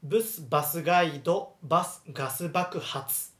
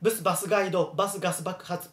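First: Tongue twister broken into measured phrases; example reading. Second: バスガイド、バス、ガス爆発 run together quickly; quick, continuous tongue-twister delivery. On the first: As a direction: model バスガイド and ガス爆発 with pauses between. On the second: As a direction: rattle off バスガイド and ガス爆発 without pauses. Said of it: "hablar rápido". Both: Shown as a demonstration.

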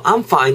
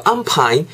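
First: Fine with teeth on the lip; correct F in fine. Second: I'm fine with fine said as pine, a hard P; wrong P in fine. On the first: A teacher saying I'm fine correctly with an F. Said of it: "제가 의도는". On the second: A teacher joking how fine becomes pine with a P. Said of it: "P I N E 하면". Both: Shown as a demonstration.

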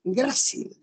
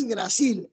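First: "grácil" said slowly, stressed on GRA; stress on first syllable. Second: "gracil" mis-stressed on its last syllable, gra-CIL; wrong final stress. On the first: Teacher giving the correct word, slow "grácil" stressed on GRA. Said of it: "es grácil". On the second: Teacher rejecting a mispronunciation, "gracil" stressed on CIL. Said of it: "la palabra no es gracil". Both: Shown as a demonstration.

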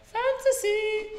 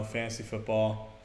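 First: Sung, slow, very high falsetto. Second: Said in the usual way. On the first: Pretend. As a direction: croon it slowly way up high. Repeats word in a voice.

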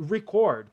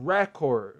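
First: Record said as re-CORD, stress on the second syllable; record as the verb, stress on CORD; corrected stress. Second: Record said as REcord, stress on the first syllable; record stressed first like the noun; wrong stress. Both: Shown as a demonstration. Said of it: "perdão, já até confundi a pronúncia".

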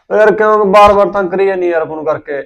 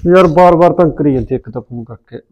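First: Louder, higher exasperated whine into the phone; irritated complaint. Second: Loud irritated grumble to himself; fed-up grumble. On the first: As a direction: let her hear how sick of it you are. (Phone ਤੇ ਖਿਝ ਕੇ ਉੱਚੀ ਸ਼ਿਕਾਇਤ) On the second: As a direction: complain loudly before answering the phone. Fed up with repeated calls. (ਖਿਝ ਕੇ ਉੱਚੀ ਬੁੜਬੁੜ) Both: Acted.

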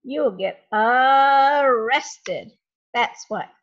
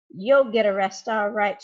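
First: Loud, very slow, arrested drawn out long; drawn-out pun. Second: Loud triumphant retort, You'll stressed; shouted. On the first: Mister Dark turning the rest into arrested, slow loud pun. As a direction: stretch arrested out slowly and loudly to land the joke. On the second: Mister Dark bursting in on the thieves, loud shouted retort. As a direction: fire it back at the thieves loudly. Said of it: "shouted Mister Dark". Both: Acted.

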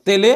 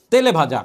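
First: "তেলে" said alone on a rise; word singled out. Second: Said in the usual way. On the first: Shown as a demonstration. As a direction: lift "তেলে" to point at its ending. ("তেলে" আলাদা করে উঠতি সুরে) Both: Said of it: "এ বিভক্তি চিহ্ন আছে".

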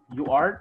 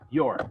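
First: Said in the usual way. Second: "your" as one contracted syllable; forma abreviada. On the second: Shown as a demonstration. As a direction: run you and are together into "your". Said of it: "es para hablar más rápido". ("your" contraído en una sola sílaba)

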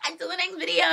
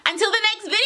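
First: High, small-voiced playful call; softer cutesy sign-off. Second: Playful squealed sign-off. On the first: Vlogger repeating the sign-off to viewers, softer high cutesy voice. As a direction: echo the sign-off high but held back. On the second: Pretend. Vlogger signing off to viewers, high playful squeal. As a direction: sing it out high to the fans. Sign-off, first of two takes.

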